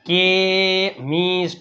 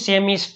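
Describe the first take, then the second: First: The word begins with a k sound. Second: The word begins with an s sound. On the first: The speaker calls it right. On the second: The speaker calls it wrong.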